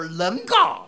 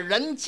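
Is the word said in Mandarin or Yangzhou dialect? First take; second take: Yangzhou; Mandarin. First: It is said with Yangzhou dialect pronunciation. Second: It is said with standard Mandarin pronunciation. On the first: "叫人家" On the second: "扬州话不说人家"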